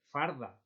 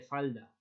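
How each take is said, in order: First: An r sound comes before the d. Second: An l sound comes before the d.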